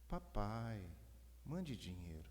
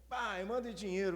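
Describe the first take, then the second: First: It is read in a soft, gentle tone. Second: It is read in an annoyed, harsh tone.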